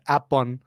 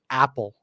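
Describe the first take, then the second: First: The word ends with an n sound. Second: The word ends with an l sound. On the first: It names the fruit. "Thais pronounce the fruit apple. They call it apon" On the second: It is a girl's nickname. "they will just call her Apple"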